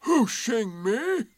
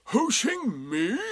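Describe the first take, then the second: First: Slow, high, loud rising question; Eeyore, surprised. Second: Drawn-out, high, raised question; Eeyore, surprised. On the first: Donkey querying the rabbit's claim, loud and surprised. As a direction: stretch the words in affronted disbelief. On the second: Donkey still querying the rabbit, slow and surprised. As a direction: repeat it slowly in disbelief. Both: A narrator's reading. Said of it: "said Eeyore in surprise".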